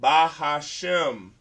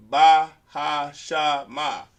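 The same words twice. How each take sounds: First: Bahashem slowly, ending crisply on shem; correct reading. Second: Bahashama slowly with an extra final a, loud; wrong reading. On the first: Teacher gives the class the right reading, slow. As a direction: draw out Bahashem, no final vowel. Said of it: "That word is". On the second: Teacher shows the class the wrong reading, slow and loud. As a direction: drag out Bahashama, ending on a. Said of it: "That's not a word in Hebrew". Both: Shown as a demonstration.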